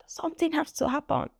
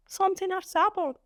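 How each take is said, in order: First: Said in the usual way. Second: Something has to happen, higher and pressed on happen; exasperated repeat. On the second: Real, not acted. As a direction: say it again, fed up, leaning on happen.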